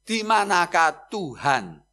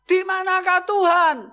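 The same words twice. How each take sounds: First: The question is asked at normal volume. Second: The question is asked in a very loud voice.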